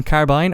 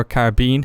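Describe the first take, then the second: First: Carbine said to rhyme with line; first pronunciation. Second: Carbine said to rhyme with seen; alternative pronunciation. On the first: Naming the gun for viewers, carbine as CAR-byne. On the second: Offering viewers another option, carbine as car-BEEN. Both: Shown as a demonstration. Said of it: "however you want to say it".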